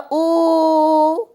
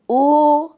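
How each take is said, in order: First: The vowel is drawn out very long. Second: The vowel is held longer. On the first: "तीन मात्राओं जितना समय लगता है" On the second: "अधिक समय लगा"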